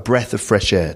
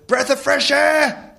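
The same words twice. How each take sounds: First: It is said calmly in an ordinary tone. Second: It is shouted with a slightly aggressive edge. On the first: It is a casual everyday invitation. "the sort of thing you would say normally" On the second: The speaker feels desperate and lonely. "Just the way he shouts that slightly aggressively"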